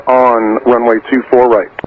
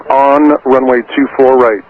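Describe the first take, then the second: No difference in how they are said.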